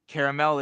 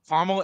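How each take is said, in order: First: Caramel is said with a European pronunciation. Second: Caramel is said with an American pronunciation. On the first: "Caramel is uh, European" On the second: "Caramel is American"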